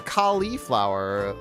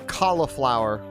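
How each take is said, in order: First: The second syllable has a clear 'lee' sound. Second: The second syllable lacks a clear 'lee' sound. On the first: The speaker calls it right. "like a border collie or a lollipop. Gotta get that lee, lee noise in there" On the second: The speaker calls it wrong. "which of you says cauliflower?"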